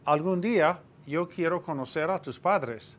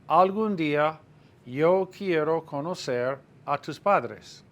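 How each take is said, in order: First: The sentence is spoken at a faster pace. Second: The sentence is spoken at a slower pace.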